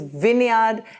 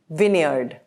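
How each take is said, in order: First: It is said in a British accent. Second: It is said in an American accent. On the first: "In British pronunciation, it is" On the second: "in American pronunciation, it is"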